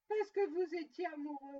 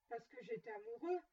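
First: Loud, scornful echo; grumbled in loud disbelief; indignant grumble. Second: Said in the usual way. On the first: A narrator's reading. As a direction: throw the words back, louder. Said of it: "grommela Scrooge".

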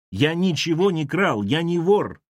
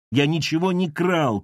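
First: Insist, shouting. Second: Shout. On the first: Lavrovsky shouting again he is no thief. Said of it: "Именно он крикнул". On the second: Lavrovsky shouting his innocence at Ira. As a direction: shout the denial. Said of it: "крикнул Лавровский". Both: A narrator's reading.

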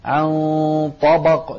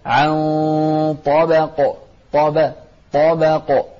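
First: طبق with a heavy, dark "baw"; wrong thickened ب. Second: طبق with a thin, light "ba"; careful unthickened ب in طبق. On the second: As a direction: keep the ب in طبق light between the heavy letters. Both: Shown as a demonstration. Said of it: "لا تفخمها".

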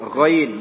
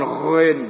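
First: "Ghain" with an open a after the gh; correct ghain. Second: "ghain" with a rounded, o-like vowel; wrong ghain. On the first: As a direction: model "Ghain" clearly and slowly. ("Ghain" yang benar, a terbuka) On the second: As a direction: show the mistaken, drawn-out "ghain". ("ghain" salah, vokal membulat) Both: Shown as a demonstration. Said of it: "bukan ghain".

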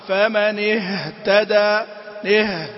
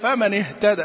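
First: Slow "اهتدى" with the ه dragged out; over-lengthened ha. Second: "اهتدى" with a short clear ه straight into ت; properly timed ha. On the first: Retold or imitated. Teacher imitating some reciters, over-lengthened ha. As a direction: let breath linger on ه before the ت. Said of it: "في بعضهم يقول". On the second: Shown as a demonstration. Teacher correcting the reciters' mistake, properly timed ha. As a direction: keep the ه brief, no lingering. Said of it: "لا".

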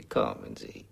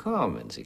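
First: Breathy whispered, much lower and softer; whispered coaxing. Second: Said in the usual way. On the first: Acted. Morton whispering to coax Biralbo, soft and low. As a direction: lean in and whisper it.

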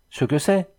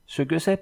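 First: First "Ce que c'est" rising, eager and quick; rapid excited chatter. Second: Repeated "ce que c'est" pitched higher, rising at the end; rapid excited chatter. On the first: Pierre bursts in on Angèle with news, voluble and excited. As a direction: spill the words out in a joyful rush. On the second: Pierre repeats himself to Angèle, voluble and higher with excitement. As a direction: echo yourself higher, nearly breathless with joy. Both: A narrator's reading. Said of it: "poursuivit Pierre avec une volubilité étonnante".

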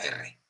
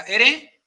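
First: "R" named as "erre", rolled r; double trilled R. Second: "R" named as "ere", one light tap; single tapped R. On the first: Host teaching the double R, trilled demonstration. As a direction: roll the r in "erre". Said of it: "si es una doble". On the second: Host teaching the single R, tapped demonstration. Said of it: "Si es una R". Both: Shown as a demonstration.

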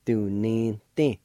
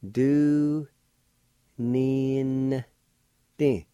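First: Said in the usual way. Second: Very slow, long held syllables, raised pitch; teacher sounding a word out slowly. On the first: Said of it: "I'll pronounce these words". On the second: Shown as a demonstration. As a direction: stretch each syllable out with long pauses between. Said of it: "like this".

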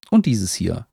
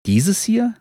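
First: "dieses hier" falling, as a statement. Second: "Dieses hier" pitched high, rising at the end; surprised question. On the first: Beetle lists books it knows, "dieses hier" falling. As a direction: let "hier" drop to close the list. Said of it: "Liegt unten am Wehr". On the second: Walker queries the beetle, "Dieses hier" high and rising. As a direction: lift "hier" sharply into a question. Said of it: "fragt Ernst". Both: A narrator's reading.

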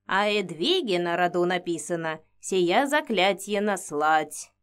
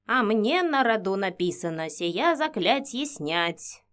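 First: Put-on old woman whispering. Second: Slow pensive murmur in her ear; old woman whispering. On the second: Acted. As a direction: muse it slowly, half whispered. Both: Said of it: "задумчиво шептала мне на ухо Инга".

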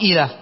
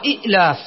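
First: إيلاف with long ii in place of the glottal stop; lightened ya form. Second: إئلاف with the second hamza sounded as a stop; short i, catch in the throat, then the rest of إئلاف; original two-hamza form. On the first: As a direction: let the first vowel of إيلاف glide into the l. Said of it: "لأجل التخفيف صارت". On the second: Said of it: "وإلا فأصلها". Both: Shown as a demonstration.

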